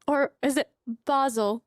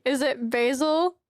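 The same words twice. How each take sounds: First: Basil said BAH-zul, with an open ah; fancy British pronunciation. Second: Said in the usual way. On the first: Shown as a demonstration. Streamer asking viewers which way to say it, basil as BAH-zul. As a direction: say basil with a broad ah in place of ay. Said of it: "I know some of you say". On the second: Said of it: "or is it basil".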